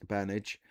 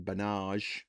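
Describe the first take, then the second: First: "Burnage" as BUR-nij, stress up front; usual pronunciation. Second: "Bernage" as buh-NAHZH, stress on the end; mock-posh mispronunciation. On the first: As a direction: say "Burnage" plainly, ending in -ij. Corrects the joke pronunciation. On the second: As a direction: say "Bernage" French-style, ending in a soft zh. Joke pronunciation of Burnage, then corrected. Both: Shown as a demonstration.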